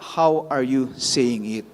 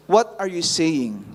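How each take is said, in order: First: "How" leaned on, set apart; stress on how. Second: "What" leaned on, falling tune; stress on what. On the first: Preacher contrasting questions to the congregation, stressing "How". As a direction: hit "How" harder than the rest. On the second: Preacher contrasting questions to the congregation, stressing "What". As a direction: land the weight on "What". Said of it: "the question is not just". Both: Shown as a demonstration.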